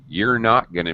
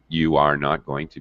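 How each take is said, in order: First: You and are merge into you're. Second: Every word is said in full, uncontracted. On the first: "Or I could actually contract you and are" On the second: "I can use full form"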